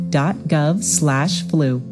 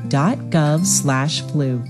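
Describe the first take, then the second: No difference in how they are said.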